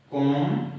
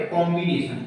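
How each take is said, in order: First: "combination" as कॉम, बि, ने, शन with long pauses; syllable by syllable. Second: Said in the usual way. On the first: Shown as a demonstration. Teacher showing a multi-syllable word, "combination" broken into four parts. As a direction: dictate "combination" one syllable at a time. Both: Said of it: "दो से अधिक tone में कर पाए".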